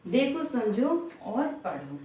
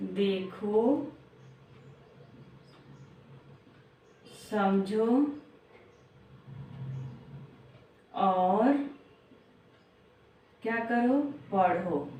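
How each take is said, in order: First: Said in the usual way. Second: Each word drawn out with long pauses; slow, word by word. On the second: Shown as a demonstration. Teacher to young pupils, slow deliberate phrasing. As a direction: spell out the steps slowly for the children.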